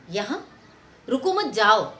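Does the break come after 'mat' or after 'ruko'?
after mat. The phrase breaks right after 'mat'. Do not stay here; leave this place. "अगर इसका stress हम change कर दें"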